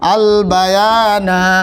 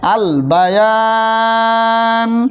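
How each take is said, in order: First: The last vowel is short, ending on na. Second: The last vowel is stretched long, ending on n. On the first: The reader continues without stopping. "একালিপে টান হবে।" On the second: The reader stops for breath here. "তিন আলিফ পরিমাণ টান।"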